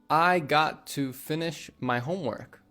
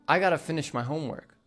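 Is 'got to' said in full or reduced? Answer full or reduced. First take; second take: full; reduced. First: Both words of 'got to' are said fully. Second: 'Got to' is blended into one word, 'gotta'. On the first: "Instead of saying" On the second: "got to turns into gotta"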